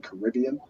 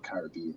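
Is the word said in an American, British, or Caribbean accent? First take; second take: American; British. First: It is said in an American accent. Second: It is said in a British accent. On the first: "Americans would probably say the Caribbean, you'd say" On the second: "but in the U K we'd say"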